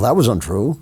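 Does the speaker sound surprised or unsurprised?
unsurprised. It sounds unsurprised and matter-of-fact.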